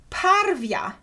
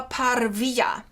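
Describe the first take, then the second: First: "parvia" high and clear, two syllables par-vya; pron parvia. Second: "parvia" whispered, three syllables par-vi-ya; Sievers' law form. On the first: Lecturer gives the reconstructed form, clear two-syllable "parvia". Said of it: "the phonological interpretation". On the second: Lecturer adds the Sievers' law variant, whispered three-syllable "parvia". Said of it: "with Siever's law". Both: Shown as a demonstration.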